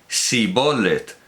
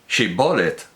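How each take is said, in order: First: The word begins with an 's' sound. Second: The word begins with a 'sh' sound. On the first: The speaker calls it wrong. "no acertaba a pronunciarlo correctamente" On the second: The speaker calls it right. "Di pues Shibbolet"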